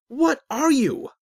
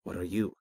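First: Loud, high, drawn-out yell; exasperated, angry demand; angry shout. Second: Level question, turned back on the asker; unruffled reply, rising at the end; calm echo. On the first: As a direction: shout it slowly in rising impatience. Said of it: "Azric shouted, growing impatient and angry". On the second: Voice calmly turns the question back. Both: A narrator's reading.

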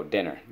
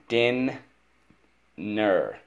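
First: Said in the usual way. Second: Din held high, long pause, falling ner; split into syllables. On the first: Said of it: "Let's go". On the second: Shown as a demonstration. Teacher shows pupil how dinner divides, split into syllables. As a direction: break it slowly into Din and ner. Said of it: "we divide the syllable".

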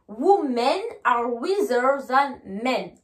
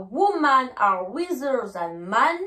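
First: Slow "Women" ending in men, "men" with eh; slow model sentence, "men" with a short e; correct plural. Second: Slow "Women" said as woo-man, "men" as man; wrong example, "men" pronounced man; wrong singular. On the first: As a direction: clear e in "Women" and "men", falling at the end. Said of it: "mais je dis bien". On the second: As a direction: open a in "Women" and "men", ending up in the air. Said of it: "je ne dis pas". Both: Shown as a demonstration.

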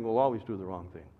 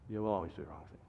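First: Said in the usual way. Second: Much lower and softer, weighty; grave low echo. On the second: Acted. Pastor warning parents, dropping to a low hush. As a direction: let the warning sink in quietly.

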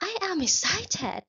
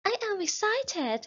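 First: High, very slow, bubbling with excitement; excited voice. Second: Even higher and very slow; more excited voice. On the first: Teacher acting out excitement for the class to copy, high and slow. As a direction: sound thrilled, drawing each word out. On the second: Teacher repeating the model sentence for the class, higher still. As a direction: squeal it out, thrilled. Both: Shown as a demonstration.

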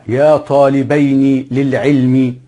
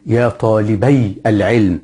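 First: Slow, careful يا طالبين للعلم with the nun clearly sounded; nun kept, said slowly. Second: Slow يا طالبي العلم with no nun, طالبي running straight into العلم; nun dropped, said slowly. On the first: Teacher to students, showing the kept nun slowly. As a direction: drag out طالبين so its final nun rings. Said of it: "لاحظ إن النون إيه؟". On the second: Teacher recalling the construct form, slow and deliberate. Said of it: "كنا بنقول في المضاف إيه؟". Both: Shown as a demonstration.

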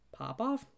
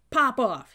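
First: High questioning rise, not shouted; puzzled echo. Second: Very loud, high shout; hollered command. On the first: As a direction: repeat it as a baffled question. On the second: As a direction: holler it as an order. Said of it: "he hollered". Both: A narrator's reading.

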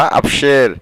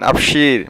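First: আফসের with an "e" in the last syllable; "e" variant. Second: আফসির with a long "ee" in the last syllable; "ee" variant. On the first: Teacher tells learners how to agree, আফসের said as "af-sher". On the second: Teacher tells learners how to agree, আফসির said as "af-sheer". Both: Shown as a demonstration. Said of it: "বা".

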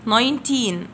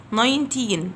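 Both takes have the same delivery.

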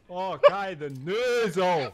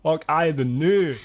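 First: Very slow, stretched fake Scottish on noozle; exaggerated mock Scottish. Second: Slow, louder fake Scottish mumble; mock Scottish accent. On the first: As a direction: drag out noozle in a thick put-on brogue. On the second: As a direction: mangle the words in a put-on Scottish brogue. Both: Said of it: "my accent is so loud".

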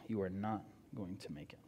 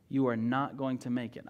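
First: "you are not going to make it" repeated much lower and softer, stress on "you"; low, grave warning. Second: Said in the usual way. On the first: Shown as a demonstration. Preacher warns the congregation directly, low and quiet. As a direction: drop the voice and warn them gravely. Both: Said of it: "I will tell you right now".

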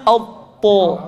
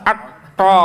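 First: AUTO thick, with the whole tongue raised; heavy to. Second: ATTO with a thin first vowel and a loose TO; wrong to. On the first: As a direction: lift the tongue for a full round TO in AUTO. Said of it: "posisi lidahnya di atas". ("Auto" tebal, lidah diangkat) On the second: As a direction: say ATTO slowly without the thick onset. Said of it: "Awas jangan atto". ("atto" yang keliru) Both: Shown as a demonstration.

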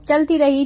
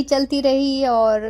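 First: Said in the usual way. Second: Slow, with रही stretched long; drawn-out repeat. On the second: Real, not acted. Vlogger describing the long cave walk, slowly drawn out. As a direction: let रही drag on like the endless walk.

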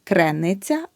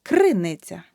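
First: Криниця with е after кр; the mistake in криниця, е for и; wrong vowel demo. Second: Криниця with a clear и after кр; correct vowel demo. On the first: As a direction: say криниця wrongly as "kre-nytsia". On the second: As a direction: say криниця as "KRY-nytsia", first syllable punched. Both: Shown as a demonstration. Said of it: "Не".

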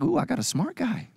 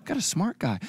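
First: Higher, delighted ooh on a smart guy; mock swoon. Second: Said in the usual way. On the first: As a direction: gush over finding a smart guy. You're like.

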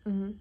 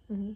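The two takes are said the same way.

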